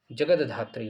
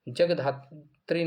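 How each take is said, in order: First: "जगदधात्री" with an added द before धा, lower; corrected जगदधात्री. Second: "जगधात्री" with no द before धा; wrong form जगधात्री. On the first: Teacher gives students the correction, जगदधात्री with द sounded. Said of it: "जगदधात्री होता है". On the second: Teacher rejects the faulty spelling, जगधात्री without the द. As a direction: slowly say "जगधात्री", jag straight into dhatri. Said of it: "जगधात्री नहीं होता". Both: Shown as a demonstration.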